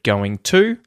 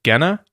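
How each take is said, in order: First: The two words are said fully and separately. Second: The two words are reduced and run together. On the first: "instead of going to" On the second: "you'll get gonna instead of going to"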